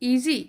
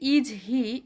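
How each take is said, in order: First: The two words are joined quickly without pause. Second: There is a pause between the two words. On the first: The speaker calls it right. "স্পিডের সাথে easy, কোনো রকম পথ ছাড়া" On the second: The speaker calls it wrong. "এটা কিন্তু একটা pause থেকে যাচ্ছে"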